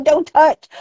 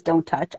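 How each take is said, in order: First: High, louder incredulous repeat of the warning; mock indignation. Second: Said in the usual way. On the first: Speaker scoffing at what the sign says, indignant and high. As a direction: throw the words back, pitched up and loud.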